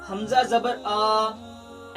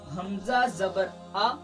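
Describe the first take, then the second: First: The final vowel is stretched out long. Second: The final vowel is short and unforced. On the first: The speaker calls it wrong. "बाज हजरात जबर को खींच कर पढ़ते हैं, ऐसा गलत है" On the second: The speaker calls it right. "अब हमने इसको खींचा नहीं और हमने इसको झटका भी नहीं दिया"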